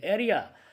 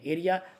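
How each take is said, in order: First: It is pronounced in a British way. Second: It is pronounced in an Indian way. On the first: "ऐसे बोलते हैं अंग्रेज" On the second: "अपने यहाँ जो बोलते हैं भारतीय में इसको एरिया बोलते हैं"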